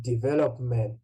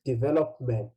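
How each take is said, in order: First: Development said with an added final s; plural, S pronounced. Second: Development stopping on the final t; singular, no S. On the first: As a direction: carefully model development as plural, ending in ts. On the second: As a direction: carefully model development without an s. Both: Shown as a demonstration. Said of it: "you see the difference?".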